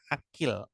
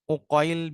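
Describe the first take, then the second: First: The name begins with an a vowel. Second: The name begins with a u vowel. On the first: This is the usual reading of the name. "dibaca akil, ainnya difatahkan" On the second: This reading is for two exceptional narrators only. "Didomahkan ainnya"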